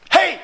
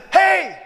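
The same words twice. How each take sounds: First: Short call to get his attention. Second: Loud, high shout to stop someone; raised, insistent hail; louder call. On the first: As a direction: call out "hey" to someone walking off. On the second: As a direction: shout "hey" after someone walking away. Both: Retold or imitated. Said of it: "a little bit louder".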